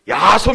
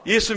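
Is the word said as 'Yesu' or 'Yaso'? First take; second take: Yaso; Yesu. First: The word is said as 'Yaso'. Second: The word is said as 'Yesu'.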